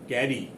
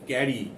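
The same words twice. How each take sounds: No difference in how they are said.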